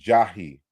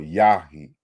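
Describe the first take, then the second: First: The word begins with a J sound. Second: The word begins with a Y sound. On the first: The speaker calls it wrong. "you don't you don't read this as Jahi" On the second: The speaker calls it right. "but it's you know Yahi"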